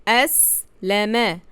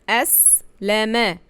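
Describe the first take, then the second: The two takes are said the same way.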